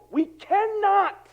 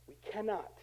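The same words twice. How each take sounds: First: CANNOT high and drawn out; emphatic insistence. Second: Much softer, sober "cannot"; hushed repeat. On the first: Preacher telling church they can't do it alone, emphatic. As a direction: preach "cannot" slowly at a raised pitch. Emphatic repeat before a hushed one. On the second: Preacher letting the point sink in after insisting, hushed. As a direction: drop right down and say it quietly. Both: Real, not acted.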